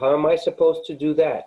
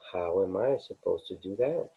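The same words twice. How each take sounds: First: It is spoken at an ordinary, brisk pace. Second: It is spoken slowly in a calm, low voice. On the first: The speaker calls it wrong. "that's not how you say it" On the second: The speaker calls it right. "Slow it down"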